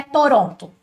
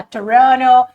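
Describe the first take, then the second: First: "Toronto" with both t's sounded, Brazilian style; Portuguese pronunciation. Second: "Toronto" as tuh-RON-oh, second t dropped; English pronunciation. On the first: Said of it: "se você tá falando em português". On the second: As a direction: say "Toronto" the North American way, louder. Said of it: "Quando você vai falar inglês". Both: Shown as a demonstration.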